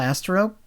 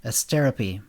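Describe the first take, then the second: First: Asterope said AS-ter-ope; Asterope with first-syllable stress and a silent final e; mispronounced name. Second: Asterope said uh-STER-uh-pee; Asterope stressed on STER, final e sounded; corrected pronunciation. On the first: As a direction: say Asterope in three syllables, rhyming the end with rope. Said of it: "He pronounced it Asterope". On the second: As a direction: say Asterope in four syllables, ending in pee. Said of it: "it's pronounced Asterope". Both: Acted.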